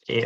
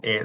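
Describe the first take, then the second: First: E said as a short vowel; short E sound. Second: E held as a long "eh" vowel; long E sound. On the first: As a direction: say E short, as for Greek epsilon. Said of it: "Epsilon expresses a short E sound". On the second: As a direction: draw out E, as for Greek eta. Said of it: "pronounced like a long E sound". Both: Shown as a demonstration.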